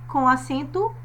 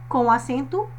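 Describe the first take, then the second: Both takes have the same delivery.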